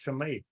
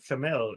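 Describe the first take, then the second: First: The name ends without an L sound. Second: The name ends with an L sound. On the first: The speaker calls it right. "It's Chamay" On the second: The speaker calls it wrong. "It's not Chamel"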